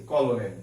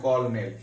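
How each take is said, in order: First: কলোনেল drawn out slowly as ko-lo-nel, just as spelt; spelling pronunciation. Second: কর্নেল said as kor-nel, with an r and no middle o; correct pronunciation. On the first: Teacher shows students the written form of colonel, slowly. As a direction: read কলোনেল syllable by syllable, slowly. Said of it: "বানানে দেখা যাচ্ছে কলোনেল আছে". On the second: Teacher answers the students with the right way to say it, kor-nel. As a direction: give the real spoken form কর্নেল. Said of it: "উচ্চারণ কি হচ্ছে? কর্নেল". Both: Shown as a demonstration.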